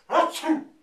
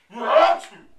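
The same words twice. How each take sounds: First: Sudden high, explosive sneeze; acted sneeze, high and loud. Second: Huge, high, exploding sneeze; hammed-up sneeze, extremely loud; bigger sneeze. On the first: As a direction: burst out with a big mock sneeze. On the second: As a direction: let out an enormous mock sneeze at full blast. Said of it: "And she sneezed again".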